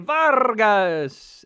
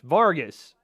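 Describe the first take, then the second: First: The name is said with a Spanish accent. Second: The name is said with an English accent.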